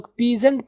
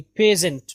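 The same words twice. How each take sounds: First: "پیزنٹ" as pee-zant; "پیزنٹ" with an ee first vowel; wrong peasant. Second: "پیزنٹ" as pay-zent; "پیزنٹ" with an e first vowel; correct peasant. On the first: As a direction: say "پیزنٹ" starting with a long pee. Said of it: "یہ پی نہیں ہے". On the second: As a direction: say "پیزنٹ" starting with pe, not pee. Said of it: "پے کی آواز آئے گی". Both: Shown as a demonstration.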